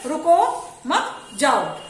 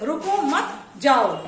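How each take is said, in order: First: रुको मत together, then जाओ; very slow demo, break before जाओ; pause after मत. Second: रुको, then मत जाओ as the command; slow demo, break after रुको; pause after रुको. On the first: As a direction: hold off, then say जाओ separately. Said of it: "दोनों का मतलब क्या हो गया". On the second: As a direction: set रुको apart from मत जाओ. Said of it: "ये विराम जो चिन्ह लगा हुआ है". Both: Shown as a demonstration.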